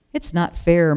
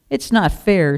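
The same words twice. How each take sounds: First: Mild moaned grumble; moaning. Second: Mildly raised, indignant protest; loud protest. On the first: Restless sheep resents the fuss over Daisy, mild moaning. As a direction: grumble it, only lightly put on. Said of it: "moaned Curly". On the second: Sheep objects to Daisy getting a party, mild loud protest. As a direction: protest aloud, a touch louder. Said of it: "said Curly loudly". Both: A narrator's reading.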